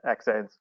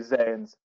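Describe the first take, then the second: First: The word starts with a ks sound. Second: The word starts with a z sound. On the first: This is the European way of saying it. "the Europeans tend to say uh, hexanes" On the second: This is the American way of saying it. "the Americans say Zanes"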